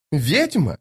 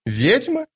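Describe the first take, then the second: First: Higher pitch with a falling end; indignant repeat. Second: High, rising offended echo; incredulous question. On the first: Lady Envy advancing with burning eyes, indignant. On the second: Lady Envy hearing herself called witch, incredulous. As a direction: throw it back high, as a question. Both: Acted.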